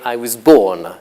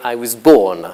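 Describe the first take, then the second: First: 'I' and 'was' are reduced to weak forms. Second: 'I' and 'was' are reduced to weak forms.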